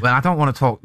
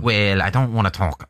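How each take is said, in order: First: Put-on a second go at "Well, I don't wanna talk" in a Welsh accent; lightly Welsh, impersonating the manager; attempted Welsh accent. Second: Put-on a slip into a Scouse accent for "Well, I don't wanna talk"; lightly Scouse, aiming for Welsh; Scouse accent creeping in; accidental Scouse. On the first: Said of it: "Bit more Welsh". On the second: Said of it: "No, that's Scouse".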